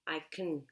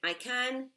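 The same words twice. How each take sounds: First: The word can is said in a reduced form. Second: The word can is said in its full form. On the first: "in a normal sentence, if it's positive, very often you will hear" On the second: "When you conjugate can, you say"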